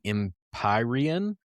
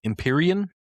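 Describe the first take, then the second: First: Empyrean said em-PIE-ree-un, slow and careful; tentative pronunciation. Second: Empyrean said em-PEER-ee-un, higher and questioning; alternative pronunciation. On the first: Reviewer guessing at a whiskey's name, Empyrean as em-PIE-ree-un. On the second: Reviewer second-guessing a whiskey's name, Empyrean as questioning em-PEER-ee-un. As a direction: try Empyrean with "peer" in the middle, unsure. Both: Shown as a demonstration. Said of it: "tell me how I'm supposed to pronounce it".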